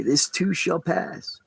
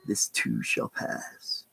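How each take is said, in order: First: "This too shall pass" with too lifted and drawn out; slow stress on too. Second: "This too shall pass" sunk low and quiet, very slow; low soft repeat. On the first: Man telling himself daily, slow with "too" stressed. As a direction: lean on "too", slow and rising. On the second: Repeating his daily mantra to himself, low and slow. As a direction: let it fall away, slow and low. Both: Shown as a demonstration. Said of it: "I say to myself every day".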